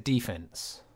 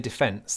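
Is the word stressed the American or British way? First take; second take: American; British. First: The word is stressed the American way. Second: The word is stressed the British way. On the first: "they say defense" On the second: "when Americans don't say defense"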